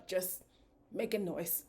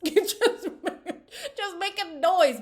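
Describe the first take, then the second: First: Softer, muted aside; understated. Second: High, loud, through laughter; laughing outburst. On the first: Host on the noisy couple, understated. First take, said low. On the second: Host laughing at two firecrackers together, loud outburst. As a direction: crack up and belt it out. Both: Real, not acted.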